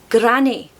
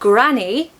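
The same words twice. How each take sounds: First: The R sound has a little roll. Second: The R sound is plain, not rolled. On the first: "It's a little roll" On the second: "granny in modern R P"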